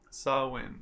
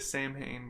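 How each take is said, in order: First: It begins with 'saw' and ends 'win'. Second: It begins with 'sam' and ends 'hain'. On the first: The speaker calls it right. "It's actually pronounced Saw Win" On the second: The speaker calls it wrong. "I say Sam Hain, but it is not"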